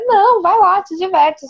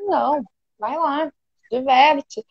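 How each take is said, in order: First: It is said in a lively, excited tone. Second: It is said in a flat, unenthusiastic tone.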